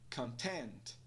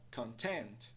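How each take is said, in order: First: Only the second syllable carries stress. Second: Only the second syllable carries stress.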